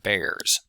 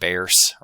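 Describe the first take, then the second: First: The final S is voiced, like a z. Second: The final S is voiceless, like an s.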